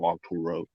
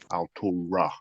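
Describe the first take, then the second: First: The name ends with an 'oh' sound. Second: The name ends with an 'ah' sound. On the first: The speaker calls it wrong. "not Alturo" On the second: The speaker calls it right. "Altura, not Alturo"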